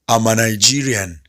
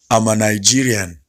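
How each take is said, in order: Both takes have the same delivery.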